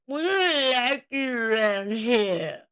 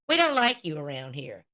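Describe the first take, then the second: First: It is mumbled, imitating Michelle's slurred speech. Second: It is said clearly in his own voice.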